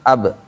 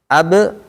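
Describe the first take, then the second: First: The final b is said softly without a bounce. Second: The final b is released with an audible bounce. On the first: The speaker calls it wrong. "jangan ab, ib, ub, pelan-pelan doang" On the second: The speaker calls it right. "Harus kedengar, be-nya itu harus kedengar"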